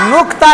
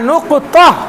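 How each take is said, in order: First: The word is said with two syllables. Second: The word is said with three syllables. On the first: The speaker calls it wrong. "নুকতা না" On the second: The speaker calls it right.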